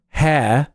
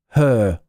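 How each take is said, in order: First: Hair is said with the air vowel. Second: Hair is said with the er vowel. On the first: "instead of hair" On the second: "people say her"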